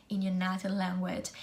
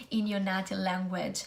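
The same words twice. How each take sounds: The two takes are said the same way.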